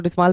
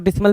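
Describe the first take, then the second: First: डिसमाल with a long open "aa" in the last syllable; डिसमाल ending in a drawn "maal"; long second vowel. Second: डिसमल with a short, reduced last vowel; डिसमल ending in a quick "mul"; short second vowel. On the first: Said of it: "कुछ लोग डिसमाल पढ़ेंगे". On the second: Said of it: "कुछ लोग डिसमल पढ़ेंगे". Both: Shown as a demonstration.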